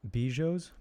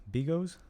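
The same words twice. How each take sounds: First: Tentative guess "Bijos", said "BEE-yos" with a questioning lift; hesitant wrong try "Bijos" before self-correcting; unsure first try at the name. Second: "Bigos" said with a hard g, "BEE-gos", still rising like a question; second guess "Bigos", hard g, unsure and questioning; self-correction to "Bigos" with a hard g; corrected try at the name. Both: Shown as a demonstration. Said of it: "I don't know what that is".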